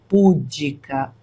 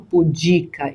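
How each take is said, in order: First: The stress is on the first syllable. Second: The stress is on the second syllable. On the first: The speaker calls it wrong. "e não púdica" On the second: The speaker calls it right. "nós temos aí uma paroxítona"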